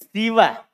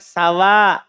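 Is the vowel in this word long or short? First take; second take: short; long. First: The word is said with a short vowel. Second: The word is said with a long vowel.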